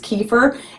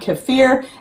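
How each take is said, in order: First: The word is pronounced the common American way. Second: The word is pronounced the Russian way. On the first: "here in America the common way to pronounce it is kefir" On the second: "I'm pronouncing it the more appropriate Russian way"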